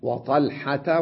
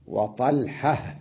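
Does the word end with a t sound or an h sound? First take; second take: t sound; h sound. First: The word ends with a t sound. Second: The word ends with a silent h sound. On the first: "هذه التاء لما كنت أنا أصل ألفظها تاء" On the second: "ألفظ التاء المربوطة هاء"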